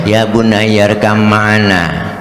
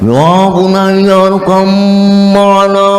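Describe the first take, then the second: First: It is said in a flat, plain speaking tone. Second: It is called out loudly, as if across a distance. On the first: It is just delivered as a speech. The speaker calls it wrong. "Masa pidato" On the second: A father is calling to a son far away. The speaker calls it right. "tuh gaya memanggil"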